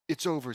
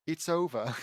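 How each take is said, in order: First: Said in the usual way. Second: Put-on British accent. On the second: Reader redoes Hermione's line in a British accent. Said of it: "also in a British accent".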